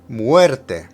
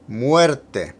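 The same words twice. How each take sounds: No difference in how they are said.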